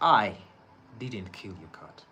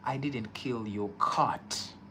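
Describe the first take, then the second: First: The stress is on the word I. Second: The stress is on the word cat.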